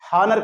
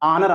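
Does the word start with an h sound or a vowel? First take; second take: h sound; vowel. First: The word begins with an audible h sound. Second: The word begins directly with a vowel sound. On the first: The speaker calls it wrong. "ఇది హానర్ కాదు" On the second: The speaker calls it right. "దీన్ని ఆనర్ అనాలి"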